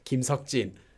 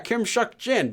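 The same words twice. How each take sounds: First: The name is said with a Korean pronunciation. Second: The name is said with an English pronunciation. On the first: "I would say it correctly" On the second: "Because I'm just looking at the name"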